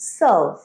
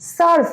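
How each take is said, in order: First: The r sound is pronounced weakly. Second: The r sound is pronounced strongly. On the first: The speaker calls it right. "রটা আমরা একটু কম pronounce করব" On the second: The speaker calls it wrong. "সার্ভ নয়"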